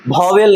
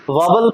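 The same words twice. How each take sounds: First: वॉवेल said wrongly with a long e, vo-wel; wrong pronunciation. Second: वॉवल said short, like vaa-vul; वॉवल with a clipped second vowel, vaa-vul; correct pronunciation. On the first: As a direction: demo the mistake वॉवेल as vo-wel. (गलत उच्चारण: वॉवेल, लंबे ए के साथ) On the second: (सही उच्चारण: वॉवल, वाउल जैसा छोटा) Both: Shown as a demonstration. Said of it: "वॉवेल नहीं पढ़ते हैं".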